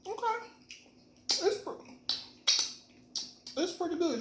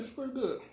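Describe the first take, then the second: First: High pleasantly surprised tasting reaction; bright high pitch after the first taste. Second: Said in the usual way. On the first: Real, not acted.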